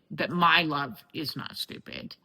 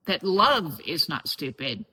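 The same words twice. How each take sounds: First: "my" stressed, the rest falling away. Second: "love" stressed, pitch rising then falling on it. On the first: Narrowing the realisation to herself, stress on "my". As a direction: lean on "my" to make it personal. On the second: Listing what she has yet to integrate, stress on "love". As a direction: lean on "love" as the key word. Restates realisation, shifting the stressed word. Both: Real, not acted.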